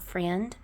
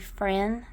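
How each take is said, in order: First: The word ends with a clear d sound. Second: The word ends without a d sound. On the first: "not friend" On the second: "I did say friend, F R E N"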